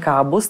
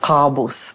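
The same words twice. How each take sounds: First: The k is soft and barely heard. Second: The k is hard and from the throat. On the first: The speaker calls it wrong. "není Kábus, tam, kde to ke skoro neslyším" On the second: The speaker calls it right. "takže také hrdelní"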